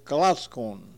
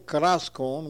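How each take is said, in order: First: The middle consonant sounds like an L. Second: The middle consonant sounds like an R. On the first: This is the way it is said now. The speaker calls it right. "we say kalaskon" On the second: This is an older way no longer used. The speaker calls it wrong. "it's spelled with an R, but now we don't say kalaskon"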